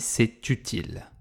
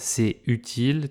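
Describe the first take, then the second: First: The t is pronounced, linking into utile. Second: The t is silent, with no link to utile. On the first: The speaker calls it right. "tu as un mot qui finit par une consonne, c'est. Tu as un mot qui commence par une voyelle, utile" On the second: The speaker calls it wrong. "Tu ne dis pas c'est utile"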